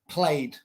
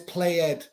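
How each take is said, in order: First: The ending is a plain d sound, one syllable. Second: The ending is a separate ed syllable. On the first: The speaker calls it right. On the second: The speaker calls it wrong.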